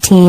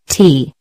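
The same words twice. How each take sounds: First: The vowel is said short. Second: The vowel is said long. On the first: It means life. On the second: It means rib.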